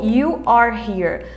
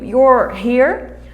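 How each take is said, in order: First: You and are are said as two separate words. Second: You and are merge into one contracted syllable. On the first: This form is used for emphasis. "esse you are here a gente usa mais quando a gente quer enfatizar" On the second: This is the everyday casual form. "no americano é muito mais comum falar you're here"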